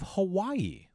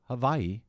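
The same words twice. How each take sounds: First: Hawaii is said with an ordinary English pronunciation. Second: Hawaii is said with a local Hawaiian pronunciation.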